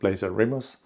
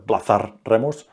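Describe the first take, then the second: First: The name is said with an English accent. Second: The name is said with a Spanish accent. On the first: "in English it sounds like the Blazer Remus" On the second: "if I try to pronounce it in Spanish"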